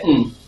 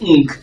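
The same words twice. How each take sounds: First: The ng is cut short with no g release. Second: A hard g sound is released after the ng. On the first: The speaker calls it right. "you say ng" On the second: The speaker calls it wrong. "instead of saying ng"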